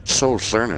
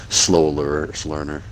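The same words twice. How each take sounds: First: Said in the usual way. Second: Trips over "lear-" mid-word, then restarts "learner"; stumbling over word. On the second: Real, not acted. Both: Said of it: "Nice speech impediment".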